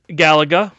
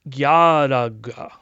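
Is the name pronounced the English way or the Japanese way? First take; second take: English; Japanese. First: The name is said with an English pronunciation. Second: The name is said with a Japanese pronunciation.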